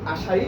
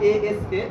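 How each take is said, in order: First: It is said as a single word. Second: It is spelled out letter by letter. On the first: The speaker calls it right. "আমরা আশাই বলি" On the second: The speaker calls it wrong. "এভাবে উচ্চারিত হয় না"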